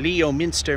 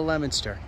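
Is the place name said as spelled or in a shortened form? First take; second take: as spelled; shortened. First: The name is said closer to its spelling. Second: The name is said in a shortened form. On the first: The speaker calls it wrong. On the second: The speaker calls it right.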